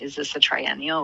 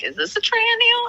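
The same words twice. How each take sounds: First: Said in the usual way. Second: High squeaky mock question; mock puzzled squeak. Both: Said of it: "someone picks up a water glass and they're like".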